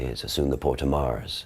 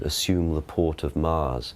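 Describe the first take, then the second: First: It is said faster in Original Pronunciation. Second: It is said slowly and reverently in modern English.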